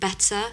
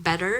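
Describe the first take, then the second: First: "better" with no r at the end; British-style "better", final r dropped; British-style pronunciation. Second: "better" with an r-coloured ending; American "better", r sounded at the end; American-style pronunciation. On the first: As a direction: say "better" with a crisp t and an open ending. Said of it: "not gonna sound like the way ... the Brits say it". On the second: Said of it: "rather than saying better, they'd say". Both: Shown as a demonstration.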